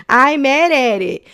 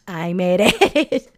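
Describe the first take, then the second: First: Louder, higher, punching mad; emphatic and louder. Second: Laughing through the words; giggling as she says it. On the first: Host repeating her frog joke to listeners, louder and higher. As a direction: declare it loud and proud. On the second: Host laughing at her own frog joke, giggly. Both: Real, not acted.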